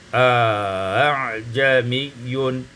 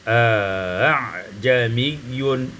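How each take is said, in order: No difference in how they are said.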